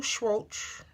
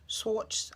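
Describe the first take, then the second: First: "Schwartz" drawn out, ending in a ch sound; unsure pronunciation. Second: "Schwartz" short, starting with plain s; second-guessed pronunciation. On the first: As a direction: say "Schwartz" slowly like "shwoatch". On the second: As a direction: try "Schwartz" as "swawts". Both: Real, not acted. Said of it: "I don't know how to say his name".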